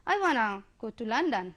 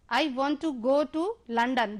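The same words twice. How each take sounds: First: "wanna" run together fast instead of "want to"; contracted wanna. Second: Said in the usual way. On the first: Shown as a demonstration. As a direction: squeeze "I wanna go to London" like a native speaker. ("wanna" को जोड़कर जल्दी से बोलिए) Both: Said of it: "जैसे मैं बोलना चाहूँ तो".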